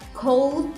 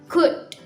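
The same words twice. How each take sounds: First: An L sound is pronounced in 'could'. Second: No L sound is pronounced in 'could'. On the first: The speaker calls it wrong. "jangan terlalu ditekankan di bagian L, L-O-nya" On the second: The speaker calls it right. "tapi dibacanya could"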